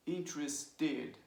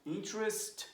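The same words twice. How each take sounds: First: "interested," slowly, with a separate TED at the end; extra syllable. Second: Said in the usual way. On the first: Shown as a demonstration. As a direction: sound out the added last syllable of "interested,". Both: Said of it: "you have the extra syllable".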